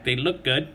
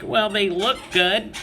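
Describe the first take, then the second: First: Said in the usual way. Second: Higher, slow, chirpy imitation of the wife; higher sweet-toned wife, slowed; wife's upbeat take. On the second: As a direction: lightly voice the optimistic wife. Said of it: "And the wife's like".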